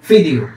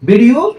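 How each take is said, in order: First: The word begins with an f sound. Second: The word begins with a v sound. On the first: "ফা দিয়ে উচ্চারণ করা হয়" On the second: "ওখানে ভি থাকে না"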